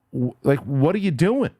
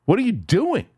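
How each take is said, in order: First: Said in the usual way. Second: Fed up, demanding an answer from the media; real anger. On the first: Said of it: "I'm getting pissed off". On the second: Real, not acted. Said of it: "I can't believe, I'm getting pissed off".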